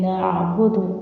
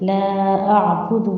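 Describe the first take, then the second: First: The vowel in 'la' is cut short. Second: The vowel in 'la' is held long. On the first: The speaker calls it wrong. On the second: The speaker calls it right.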